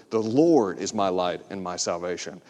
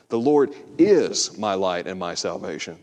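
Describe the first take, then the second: First: First take stressing Lord. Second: Is pressed and held, lower voice; stress on is. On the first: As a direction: Lord pressed, lower voice. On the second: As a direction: lean on the word is. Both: Shown as a demonstration. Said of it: "hit a different word".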